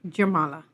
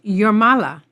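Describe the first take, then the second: First: The word begins with a J sound. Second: The word begins with a Y sound. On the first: The speaker calls it wrong. "not Jurmala" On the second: The speaker calls it right. "the J's in Latvian is usually pronounced like a Y"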